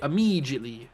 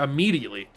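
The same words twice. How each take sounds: First: It is said in a put-on British accent. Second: It is said in the speaker's ordinary American accent.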